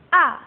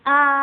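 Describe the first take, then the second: First: The pitch falls sharply from high to low. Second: The pitch stays high and level. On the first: "Yang keempat nadanya turun kayak orang marah. Disentak ya" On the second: "nada pertama itu datar tapi tinggi"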